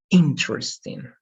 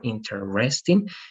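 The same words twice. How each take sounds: First: The stress falls on the first syllable. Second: The stress falls on a middle syllable. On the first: The speaker calls it right. "it's going to be interesting ... The stress is in the first part" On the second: The speaker calls it wrong. "instead of interesting ... instead of in the middle"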